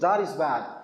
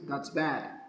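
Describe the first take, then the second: First: The words 'that is' are said in full. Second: The words 'that is' are contracted together.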